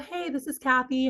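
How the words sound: It is said in a high head voice. The caller seems young and friendly. The speaker calls it right. "I would use my head voice"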